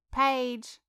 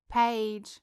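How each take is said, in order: First: Louder, more insistent call. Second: Calling a name across the room. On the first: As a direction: call again, more urgently. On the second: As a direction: call to get her attention. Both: A narrator's reading. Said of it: "tried to get her friend's attention".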